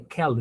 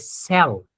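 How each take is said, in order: First: The word starts with a k sound. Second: The word starts with an s sound. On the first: The speaker calls it wrong. "You don't say kel" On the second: The speaker calls it right. "you say cell"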